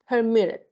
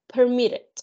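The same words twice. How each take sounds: First: "permitted" repeated, falling, weight on -MIT-; stress on second syllable. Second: "permitted" with the weight on -MIT-; stress on second syllable. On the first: Teacher repeating the stressed syllable of permitted slowly. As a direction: say "permitted" again, pressing MIT. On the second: Teacher showing the class where the stress falls in permitted. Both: Shown as a demonstration. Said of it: "two syllable with stress".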